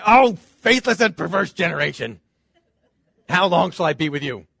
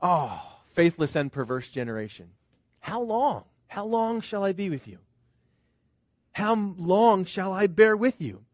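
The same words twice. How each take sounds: First: A fed-up scolding, half amused; exasperated rebuke. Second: Weary lament. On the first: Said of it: "Does Jesus say". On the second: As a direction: let it sink, sorrowful and worn out. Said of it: "Or is it". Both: Retold or imitated.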